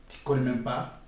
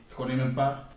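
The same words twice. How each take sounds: The two takes are said the same way.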